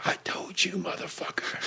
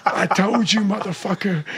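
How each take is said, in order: First: Hushed, menacing whisper; quiet whispered threat; whispered taunt. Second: Said in the usual way. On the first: Retold or imitated. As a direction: breathe the taunt out under the breath. Repeating a taunt to his rival.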